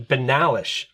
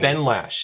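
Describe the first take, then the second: First: The name is said with three syllables. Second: The name is said with two syllables. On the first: The speaker calls it right. "It's the Benalish Marshal" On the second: The speaker calls it wrong. "I always call it the Benlash"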